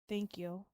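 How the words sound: It is said in a let-down, disappointed tone. The speaker expected something better. "And then disappointed"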